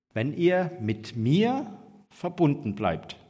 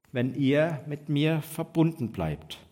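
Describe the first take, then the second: Both takes have the same delivery.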